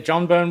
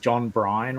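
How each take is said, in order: First: The surname is said as one syllable, Byrne. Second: The surname is said as two syllables, Bryan. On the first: The speaker calls it right. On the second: The speaker calls it wrong.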